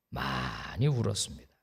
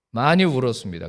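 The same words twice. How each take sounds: First: "많이 울었습니다" said lower and softer, "울었습니다" falling away; quiet confession. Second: "많이" stressed firmly, louder, falling; emphatic repeat. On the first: Pastor recalling his weeping, low and soft. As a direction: let the words sink as if remembering tears. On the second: Pastor repeating to congregation, louder emphatic. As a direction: press on "많이" to drive it home. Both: Real, not acted.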